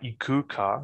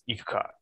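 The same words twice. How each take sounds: First: The vowel after the k is fully voiced. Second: The vowel after the k is devoiced. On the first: The speaker calls it wrong. "It's not ikuka, like I like to say it" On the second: The speaker calls it right. "You don't say the oo and the k"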